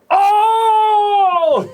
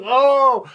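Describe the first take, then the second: First: Huge high shrieked Oh, much louder; a kid crowing over a your-mother joke; mocking burn cry. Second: Put-on a kid repeating her gloating Oh; mocking burn cry. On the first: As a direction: belt out a gloating kid's Oh as the burn lands. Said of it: "And she goes like that". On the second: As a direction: crow it again, a little smaller. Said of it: "She goes".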